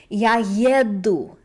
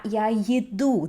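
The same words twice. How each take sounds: First: Я еду with stress on е-ДУ, slow; right stress. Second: Я еду with stress on Е-ду, slow; wrong stress. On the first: Teacher showing learners correct stress on Я еду. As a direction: stress the last syllable of еду: е-ДУ. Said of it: "pay attention to the word stress". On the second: Teacher showing the mistaken stress meaning food. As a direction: stress the first syllable of еду: Е-ду. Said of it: "That means I like food". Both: Shown as a demonstration.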